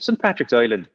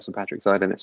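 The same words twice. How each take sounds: First: Hammy Irish accent, Island as "Oiland"; bad Irish accent. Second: Said in the usual way. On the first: Shown as a demonstration. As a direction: lay on a thick, bad Irish accent for Saint Patrick's Island. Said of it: "in a very bad Irish accent". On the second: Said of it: "you have to talk about it like that".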